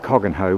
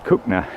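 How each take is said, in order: First: The name is said as spelled, 'Coggen-hoe'. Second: The name is said in short form, 'Cook-na'. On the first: This is how an outsider might say it. "You might pronounce it Coggenhoe" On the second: This is how local people say it. "but us locals Cookna. Uh, that's the preferred way"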